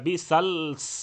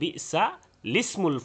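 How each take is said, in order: First: Two consonants meet with no linking vowel between. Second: An i vowel is added after the l. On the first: The speaker calls it wrong. "বিসালস এরকম তো পড়া যাবে না" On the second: The speaker calls it right. "লামে জের দিয়ে"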